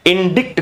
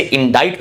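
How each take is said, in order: First: इंडिक्ट said 'in-dikt'; wrong pronunciation. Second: इंडाइट as 'in-dite'; correct pronunciation. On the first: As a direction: sound the k in इंडिक्ट, short i. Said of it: "इंडिक्ट कभी भी नहीं पढ़ना है". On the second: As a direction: say इंडाइट with silent C. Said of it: "तो आप इसे इंडाइट पढ़ेंगे". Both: Shown as a demonstration.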